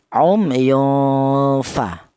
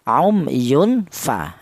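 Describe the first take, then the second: First: The n sound is blurred into the f. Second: The n sound is pronounced clearly before f. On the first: The speaker calls it right. "cara bacanya tanwin itu cara bacanya disamarkan" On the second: The speaker calls it wrong. "tidak boleh dibaca jelas ... yunfa tidak boleh ya"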